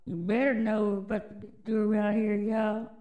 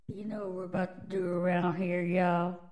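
First: Hyped-up repeat. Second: Said in the usual way. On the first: Real, not acted. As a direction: push it harder, daring them. Repeats hype line, louder.

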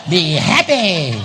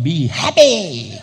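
First: Slow, louder, laughing be happy; louder laughing repeat. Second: Said in the usual way. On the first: Shown as a demonstration.

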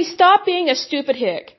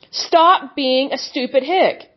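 First: Said in the usual way. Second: Slow, each word hammered; slow deliberate rebuke. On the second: Real, not acted. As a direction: spell the insult out slowly.

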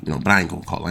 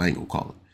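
First: Said in the usual way. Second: Whispered, softer under the breath; muttered aside. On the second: Retold or imitated. Street-ball player muttering he won't call the foul, whispered. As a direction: keep it to yourself, mutter it.

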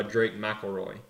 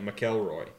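First: McElroy said as MACK-ul-roy; usual pronunciation. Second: McElroy said as muh-KELL-roy; other pronunciation. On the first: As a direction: stress the first syllable of McElroy, "MACK". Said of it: "that's how I was raised saying it". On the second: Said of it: "I never heard it pronounced like". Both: Shown as a demonstration.

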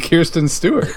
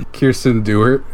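First: "Kirsten Stewart" with KEER-stin first, then a full "Stewart"; higher, insistent "Kirsten Stewart", rising at the end; insisted pronunciation. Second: "Kirsten Stewart" run together as KEER-stin DOO-ert; "Kirsten Stewart" fused into a joke name, Kirsten Dewart; blended celebrity name. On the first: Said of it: "I said Kirsten Stewart". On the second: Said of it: "It's like their celebrity name". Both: Shown as a demonstration.

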